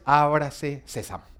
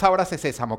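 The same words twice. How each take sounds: First: Slow, mock-mysterious incantation of "ábrase sésamo"; mock magic spell. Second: Said in the usual way. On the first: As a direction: intone "ábrase sésamo" slowly like a conjurer's spell. (recitado lento como conjuro mágico de burla) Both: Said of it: "Esto no es".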